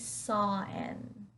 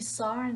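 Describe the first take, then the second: First: No r sound links saw to an. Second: An r sound links saw to an.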